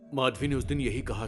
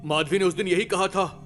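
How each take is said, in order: First: It is said at normal, quieter volume. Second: It is said much louder and more forcefully.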